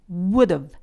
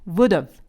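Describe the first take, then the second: First: It is said with a short v sound at the end. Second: The same.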